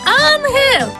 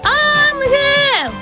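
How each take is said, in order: First: It is called at normal loudness. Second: It is called loudly.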